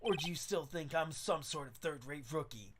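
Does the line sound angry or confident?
confident. It sounds confident rather than angry.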